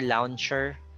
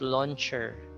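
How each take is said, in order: First: The first vowel is not a plain O sound. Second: The first vowel is a plain O sound. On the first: The speaker calls it wrong. "You don't say launcher" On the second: The speaker calls it right. "No, it's launcher"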